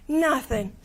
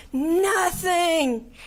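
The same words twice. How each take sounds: First: Said in the usual way. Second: High, breaking sob on the word Nothing; crying. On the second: Real, not acted. Victim to the young killer, the word breaking into tears. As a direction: let "Nothing" crack into tears. Tells killer his life wasted.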